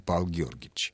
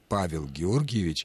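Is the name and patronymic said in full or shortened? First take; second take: shortened; full. First: The patronymic is shortened and run together. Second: The patronymic is said fully, every syllable pronounced. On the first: This is casual, colloquial speech. The speaker calls it wrong. "а не" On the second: This is formal, respectful speech. The speaker calls it right. "уместно сказать"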